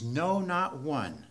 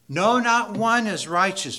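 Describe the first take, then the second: First: Slow quote. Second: Emphatic. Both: Shown as a demonstration. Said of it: "as emphatic as he can possibly be".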